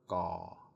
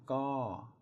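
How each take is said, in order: First: The syllable is said with a low tone. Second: The syllable is said with a falling tone. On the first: "My ik is a low tone" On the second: "My to is a falling tone"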